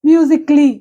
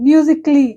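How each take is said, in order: No difference in how they are said.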